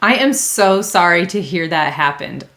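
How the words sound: The apology sounds warm and sincere. The speaker truly cares about the problem. The speaker calls it right. "the trick to that one is you need to sound genuine"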